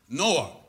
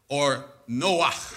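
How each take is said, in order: First: It ends plainly, with no throat sound. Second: It ends with a rough sound in the throat.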